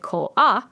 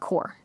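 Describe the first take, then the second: First: It is said the Japanese way, like ko-a. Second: It is said the English way, like core. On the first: "in Japanese, they pronounce it ko-a" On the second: "not core"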